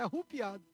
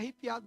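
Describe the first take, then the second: First: The second vowel sounds like u. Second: The second vowel sounds like e. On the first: The speaker calls it right. "Tudo arrupiado" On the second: The speaker calls it wrong. "Não é arrepiado"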